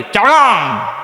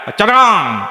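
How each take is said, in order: First: Higher, Chittagong dialect chargang for চট্টগ্রাম; Chittagong accent. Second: Higher, Chittagong dialect cháraŋ for চট্টগ্রাম; Chittagong accent. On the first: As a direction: repeat it in the boy's Chittagong accent. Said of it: "আর একবার ক". (চট্টগ্রামের টানে আবার "চারগাং") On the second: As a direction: mimic the boy's Chittagong accent. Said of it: "বাড়ি কোথায়?". (চট্টগ্রামের টানে "চারগাং") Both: Retold or imitated.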